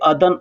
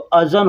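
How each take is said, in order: First: The middle consonant is a d sound. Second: The middle consonant is a z-like sound. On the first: This is how people say it in everyday speech. "लेकिन लोग बोलने के लिए अदन" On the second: This is the form the spelling gives. "ज़ाल और नून तो अज़न होता है"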